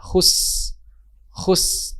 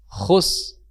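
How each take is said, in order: First: Khus with a light thin s; thin sin. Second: Khus with a heavy, thickened s; wrong thick sin. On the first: Teacher showing the correct thin sin. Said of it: "tipis, sa biasa". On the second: Teacher showing the wrong thick sin. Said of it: "khus tebal". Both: Shown as a demonstration.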